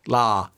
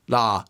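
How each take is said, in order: No difference in how they are said.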